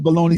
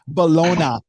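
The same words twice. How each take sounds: First: It is said in a plain, everyday voice. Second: It is said in a posh, upper-crust voice.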